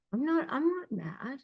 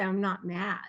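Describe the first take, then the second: First: Higher, softer, tight mock insistence; higher and softer, a put-on voice of a partner in denial. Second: Said in the usual way. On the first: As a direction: imitate someone who is clearly mad saying they aren't. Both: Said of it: "they'll say".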